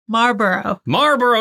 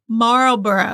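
First: The L sound is silent. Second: The L sound is pronounced. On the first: The speaker calls it right. "you got it" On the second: The speaker calls it wrong. "No, silent L"

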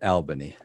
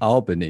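First: The first syllable sounds like 'Al'. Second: The first syllable sounds like 'all'. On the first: The speaker calls it wrong. "not Albany. Not Al like ... Like Big Al" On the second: The speaker calls it right. "It's pronounced Albany"

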